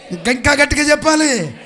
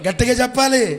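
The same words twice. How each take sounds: First: Loud, high rallying shout; urging still louder. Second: Loud, raised call to the crowd; urging louder. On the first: Preacher demanding more from the congregation, high loud shout. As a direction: push the crowd for more volume. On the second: Preacher prompting the congregation, firm raised call. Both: Real, not acted.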